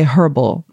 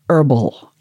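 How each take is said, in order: First: It is said South African style, with the H. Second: It is said American style, without the H.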